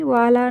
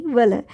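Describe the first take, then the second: First: वाला with both vowels long aa; wrong pronunciation demo. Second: वल with two short, unstressed a vowels; correct short vowels. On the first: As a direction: stretch both syllables of वाला. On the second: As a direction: keep both vowels of वल short. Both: Shown as a demonstration. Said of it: "वाला नहीं".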